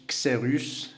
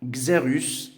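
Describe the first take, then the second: First: Xerus begun with an unvoiced ks; ks sound. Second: Xerus begun with a voiced gz; gz sound. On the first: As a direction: say Xerus as ksérus. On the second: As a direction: say Xerus as gzerus. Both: Shown as a demonstration. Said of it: "عندنا كس و X".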